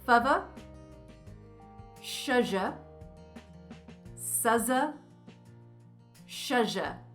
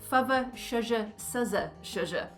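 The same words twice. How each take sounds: First: The phrase is said slowly. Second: The phrase is said quickly.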